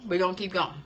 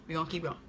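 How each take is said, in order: First: Said in the usual way. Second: "We're gonna keep going" said again much softer, to herself; repeated softer. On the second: Real, not acted. Moving past the chat question, a soft aside. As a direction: drop the level and say it to yourself.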